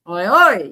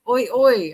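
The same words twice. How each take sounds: First: The emphasis is on the second oi. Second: The emphasis is not on the second oi. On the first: The speaker calls it right. "The emphasis on the second oi" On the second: The speaker calls it wrong. "I say it wrong"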